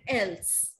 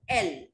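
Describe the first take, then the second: First: The final s sound is pronounced. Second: The final s sound is silent. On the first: The speaker calls it wrong. "I will not say ills and else" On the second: The speaker calls it right. "What I will say? Il, L"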